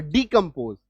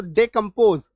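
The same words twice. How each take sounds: First: डिकम्पोज opened with "dee", not "day". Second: डिकम्पोज opened with "day", not "dee". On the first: Teacher showing students the other pronunciation, "dee" at the start of डिकम्पोज. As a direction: say the first syllable of डिकम्पोज as डी. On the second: Teacher showing students one of two pronunciations, "day" at the start of डिकम्पोज. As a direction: say the first syllable of डिकम्पोज as डे. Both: Shown as a demonstration. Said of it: "डे या डी दोनों आता है".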